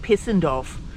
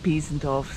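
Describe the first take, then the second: First: The first syllable sounds like 'piss'. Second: The first syllable sounds like 'peez'. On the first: This is how the train announcement said it. "on the train the other day they called it Pissendorf" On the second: This is the speaker's own way of saying it. "I keep calling it Piesendorf"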